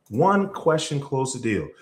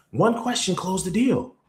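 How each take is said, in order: First: Slower, weighty repeat stressing "One"; measured, deliberate restatement. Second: Excited declaration; emphatic punchline. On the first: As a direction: let each word land. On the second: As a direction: pitch raised on the whole line, weight on "deal". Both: Shown as a demonstration.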